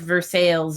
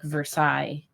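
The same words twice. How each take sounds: First: It is pronounced the American way. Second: It is pronounced the French way. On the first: It names the town in Indiana. The speaker calls it wrong. "the city of Versailles in Indiana" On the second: It follows the original French. The speaker calls it right. "like it should be, because it's French"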